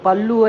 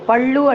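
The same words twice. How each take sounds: First: The l sound is plain. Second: The l sound is retroflex. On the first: The speaker calls it wrong. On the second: The speaker calls it right.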